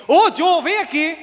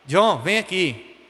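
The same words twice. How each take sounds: First: Higher, louder sharp summons; angry mother. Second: Slow, even, unhurried call; calm mother. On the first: Mother angrily summoning her son, raised voice. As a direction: call the child like trouble is coming. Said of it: "quando minha mãe tava com raiva". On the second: Mother calmly calling her son over, relaxed and slow. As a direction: call your child over with no threat at all. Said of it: "quando ela tava tranquila". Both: Retold or imitated.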